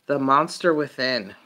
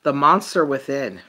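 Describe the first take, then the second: No difference in how they are said.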